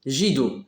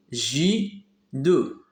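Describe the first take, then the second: First: Said in the usual way. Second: "J deux" as two beats, ju then do, with a gap; split into syllables. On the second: Shown as a demonstration. Teacher counting syllables of judo, syllable by syllable. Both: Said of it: "frapper les syllabes de mot judo".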